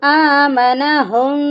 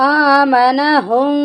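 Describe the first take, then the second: No difference in how they are said.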